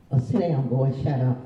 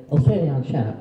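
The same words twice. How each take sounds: First: A mild mock scold at a child; harsh scolding. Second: Louder mock scold, snapping at a child; harsh scolding. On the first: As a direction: brush a kid off, curt and cross. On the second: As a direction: bark it out like a fed-up teacher. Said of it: "Don't use that".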